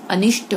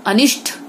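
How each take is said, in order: First: Said in the usual way. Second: अनिष्ट ending in aspirated "th"; wrong consonant. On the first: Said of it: "अनिष्ट होता है". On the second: Shown as a demonstration. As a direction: add breath to the last sound of अनिष्ट. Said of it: "गलत".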